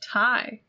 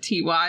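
First: It is said as one word, like 'tie'. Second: It is said as two separate spelled letters. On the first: The speaker calls it right. "It's pronounced Ty, like short for Tyler" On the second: The speaker calls it wrong. "I spent my whole childhood pronouncing it T-Y"

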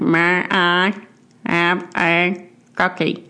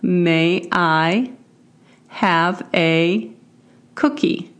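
First: It imitates the two-year-old boy's speech. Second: It is said in a plain adult voice.

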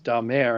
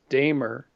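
First: The name is said with French-style pronunciation. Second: The name is said with English-style pronunciation. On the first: This is the original Frankish form of the name. "the Frankish version is Damer" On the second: This is the anglicized form of the name. "the Anglified version is Damer"

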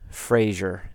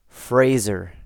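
First: The first syllable does not sound like 'phrase'. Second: The first syllable sounds like the word 'phrase'. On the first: The speaker calls it wrong. "Fraser is not Fraser" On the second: The speaker calls it right. "It's Fraser. Like it's a phrase"

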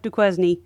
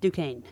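First: The name is read as it is spelled. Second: The name is said the French way. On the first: The speaker calls it wrong. "No matter how much it looks like Duquesne" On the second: The speaker calls it right. "it is Duquesne"

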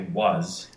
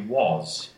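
First: The vowel is open and unrounded, American style. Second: The vowel is rounded, British RP style. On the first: "we say was. With that upside down V in IPA" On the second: "in RP would be was. which is that rounder sound"

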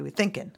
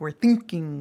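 First: Thinking ends in 'in' without the g. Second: Thinking ends with a full ing sound. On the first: "We say we're thinking" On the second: "We don't say that"

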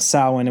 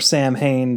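First: It is said with the original Celtic pronunciation. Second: It is said with the regular American pronunciation. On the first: The speaker calls it right. "but it is Samhain" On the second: The speaker calls it wrong. "to be the regular American pronunciation"

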